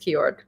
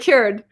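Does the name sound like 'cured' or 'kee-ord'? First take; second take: kee-ord; cured. First: The name is said as two syllables, kee-ord. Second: The name is said like the word cured. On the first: The speaker calls it wrong. "I think it's Kiord. No" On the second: The speaker calls it right. "That's how you say it"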